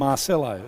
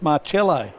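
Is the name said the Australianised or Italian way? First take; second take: Australianised; Italian. First: The name is said in an Australianised way. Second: The name is said in an Italian way. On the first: This is how the other person says the name. The speaker calls it wrong. "you call it Marcello, and it's not Marcello" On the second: This is the name's original Italian form. The speaker calls it right. "it's Marcello"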